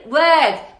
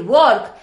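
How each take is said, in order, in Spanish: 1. La vocal es el sonido inglés que se escucha e imita. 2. La vocal se lee como está escrita, al estilo español. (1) "vas a decir work, porque vas a imitar" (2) "no vas a decir work"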